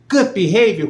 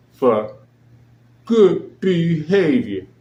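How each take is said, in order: First: Higher, louder outraged disbelief; incredulous. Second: Drawn-out, slow sarcastic echo of the excuse; mocking quote. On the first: Real, not acted. Host repeating the excuse to listeners, incredulous and loud. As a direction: spit it back as if it can't be true. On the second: Host sneering at the release reason, slow and mocking. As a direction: stretch it out like a flimsy official excuse.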